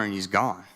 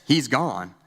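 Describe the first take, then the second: First: Said in the usual way. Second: Restrained imitation of a yell; mild retold yell. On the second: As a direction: call it out, only slightly raised. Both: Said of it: "I just hear her yell".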